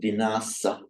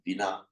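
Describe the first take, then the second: First: The word ends in a final vowel syllable. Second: The word ends in a final t sound.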